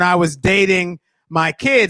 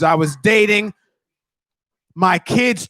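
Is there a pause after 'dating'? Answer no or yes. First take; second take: no; yes. First: There is no real pause after 'dating'. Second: There is a clear pause after 'dating'. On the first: The speaker dated his own kids. The speaker calls it wrong. "you used like a comma" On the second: The speaker was dating, and his kids gave advice. The speaker calls it right. "Just pause in between words"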